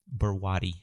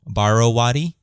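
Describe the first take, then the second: First: No vowel is said after 'Bar'. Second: An extra vowel is said after 'Bar'. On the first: "The O is silent" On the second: "when you throw in the O"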